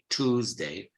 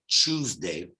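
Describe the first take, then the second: First: It is said in an American accent. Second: It is said in a standard British accent. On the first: "The American Tuesday or Tuesday, generally they say Tuesday" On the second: "the educated people in Britain would say Tuesday"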